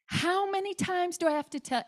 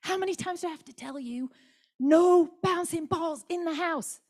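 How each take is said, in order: First: High pitched exasperated yell; mum's retold yell at bouncing kids. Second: Toned-down mock yell for the microphone; held-back yell. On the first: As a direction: yell it at the kids up the stairs, fed up. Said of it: "I was yelling". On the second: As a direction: hold back the yell, then let the last words out. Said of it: "I won't yell in the microphone".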